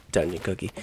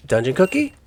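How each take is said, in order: First: Softer, lower "Dungeon cookie." muttered to oneself; quiet repeat. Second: High, rising "Dungeon cookie?" as if baffled; puzzled question. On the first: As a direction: settle it under your breath: "Dungeon cookie.". Repeats item name to himself. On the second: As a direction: ask "Dungeon cookie?" in disbelief, pitch climbing. Reads odd item name aloud. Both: Real, not acted.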